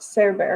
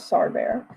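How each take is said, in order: First: "Sarah Bear" with SARAH like the name, "sair"; guessed pronunciation. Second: "Sar Bear" with SAR rhyming with car; rejected pronunciation. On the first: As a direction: say "Sarah Bear" with an AIR vowel in Sarah. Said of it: "I'm guessing it's pronounced". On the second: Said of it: "not Sar Bear". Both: Shown as a demonstration.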